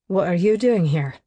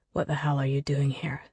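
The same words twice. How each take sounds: First: Just a hint of edge, kept polite; mild bite. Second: Low hissed whisper, lower and softer; angry whispered sneer. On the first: Declan to an unwelcome guest, a mild bite. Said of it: "with only a mild bite to his tone". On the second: Acted. Declan to the woman who deceived him, whispered sneer. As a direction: sneer it under your breath, furious. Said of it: "sneers angrily under his breath".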